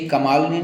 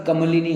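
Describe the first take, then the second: First: कमालिनी with a long maa in the middle; wrong form. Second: कमलिनी with a short ma, ka-ma-li-nee; correct form. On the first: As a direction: open the second syllable of कमालिनी to a long aa. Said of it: "कमालिनी नहीं होता". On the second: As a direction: keep the second vowel of कमलिनी short. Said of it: "कमलिनी होता है". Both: Shown as a demonstration.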